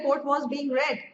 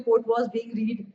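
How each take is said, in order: First: The last word is said with a short e. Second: The last word is said with a long ee. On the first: The speaker calls it right. "रीड नहीं पढ़ना, रेड पढ़ना है" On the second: The speaker calls it wrong. "सामने वाले को साफ पता चल जाएगा छोटा बच्चा है"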